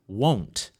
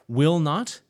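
First: It is said as one contracted word. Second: It is said as two full words. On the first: "or won't" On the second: "Will not becomes won apostrophe t"

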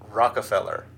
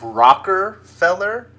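First: No R sound follows the first syllable 'rock'. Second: An R sound follows the first syllable 'rock'. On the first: The speaker calls it right. "there's no R after the rock" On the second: The speaker calls it wrong. "You said Rockefeller"

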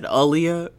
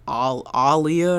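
First: The name is said without the open 'ah' sound. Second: The name is said with an open 'ah' sound. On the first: This is how most people say the name. "everybody said [name]" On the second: This is the name's original pronunciation. "her name was actually pronounced like [name] or something"

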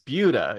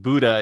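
First: The word sounds different from 'Buddha'. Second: The word sounds like 'Buddha'. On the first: The speaker calls it right. "It's Buddha" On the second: The speaker calls it wrong. "do not pronounce it Buddha"

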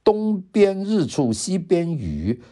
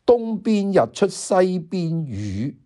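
First: It is read in Mandarin. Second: It is read in Cantonese.

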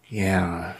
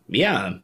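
First: It is said in a somber, serious tone. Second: It is said in a cheerful, chipper tone.

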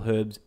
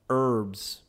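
First: It is said in a British accent. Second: It is said in an American accent.

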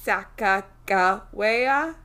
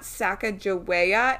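First: The middle consonant is a hard G sound. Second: The middle consonant is a soft J sound. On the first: The speaker calls it right. "So it's a hard G" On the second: The speaker calls it wrong. "it's not Sacagawea"

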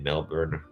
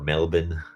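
First: It is said without a local Australian pronunciation. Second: It is said with the local Australian pronunciation.

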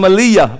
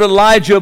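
First: The middle consonant is a Y sound. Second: The middle consonant is a J sound. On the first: The speaker calls it right. "I'm going to call him Eliyah, because that's, I don't like the J's in words anymore" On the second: The speaker calls it wrong. "I'm going to use the word Elijah"

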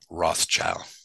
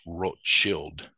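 First: The name is pronounced the English way. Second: The name is pronounced the German way. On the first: The speaker calls it wrong. "I anglicized it" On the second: The speaker calls it right. "originally pronounced Rothschild, which is German for red shield"

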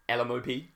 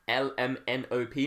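First: The letters run together quickly into one word. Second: Each letter is said separately with small pauses. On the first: The speaker calls it wrong. "not LMOP" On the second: The speaker calls it right. "it's L, M, N, O, P"

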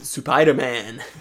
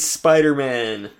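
First: It is said in a put-on Japanese accent. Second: It is said in a plain English accent.

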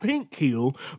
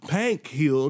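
First: The first word has a standard short 'i' vowel. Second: The first word has a country 'a' vowel.

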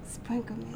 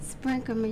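First: It is said in a sexy voice. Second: It is said in a plain voice.

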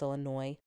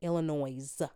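First: The final S sound is silent. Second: The final S sound is pronounced. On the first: The speaker calls it right. "I know it's Illinois" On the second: The speaker calls it wrong. "I pronounce the S at the end just to piss people off"

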